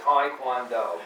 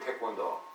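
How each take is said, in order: First: It is said with an American pronunciation. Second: It is said with a Korean pronunciation. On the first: The speaker calls it wrong. "it's like fingers on a blackboard to me" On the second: The speaker calls it right. "you go to Korea, Taekwondo, you know, which is the right way to pronounce it"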